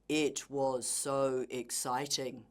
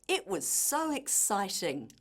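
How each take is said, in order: First: It is said in a flat, robotic voice. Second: It is said in a lively, excited voice. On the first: The speaker calls it wrong. "Try not to sound like a robot" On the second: The speaker calls it right. "try to make this apparent in your voice"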